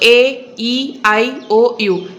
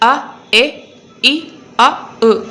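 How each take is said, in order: First: Each vowel is said as its letter name. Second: Each vowel is said as a short sound. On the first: "இது வந்துட்டு alphabet name, இதுதான் long vowel sound" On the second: "short vowel sound"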